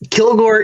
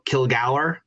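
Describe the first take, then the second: First: The surname is said the anglicized way. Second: The surname is said the Scottish way. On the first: This is the adapted English form. "So Kilgore is acceptable" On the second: This is the original form of the name. "Kilgour is the original pronunciation"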